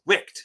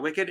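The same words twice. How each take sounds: First: Wicked squeezed into one syllable, "wikt"; Wicked rhyming with kicked; misread title. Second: Wicked in two syllables, "wik-id"; the usual two-beat Wicked, ending in "id"; standard pronunciation. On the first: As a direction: say Wicked like Wick plus a t. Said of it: "that's not Wicked". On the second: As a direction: say Wicked as WICK-id. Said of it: "It's Wicked, the new John Wick". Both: Retold or imitated.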